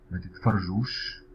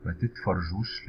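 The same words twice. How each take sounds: First: Careful slow demo of ما تتفرجوش; ما تتفرجوش said slow for learners; slow model. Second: Said in the usual way. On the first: Shown as a demonstration. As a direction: spell out ما تتفرجوش slowly. Teacher models example slowly.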